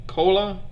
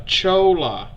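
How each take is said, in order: First: "Kola" with a hard K, as in cola; unsure pronunciation. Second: "Chola" slowly, with CH as in church; corrected pronunciation. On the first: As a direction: try out "Kola" with a hard K, questioning. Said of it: "please correct how I pronunciate it". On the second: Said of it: "my attempts to enunciate all these words". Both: Real, not acted.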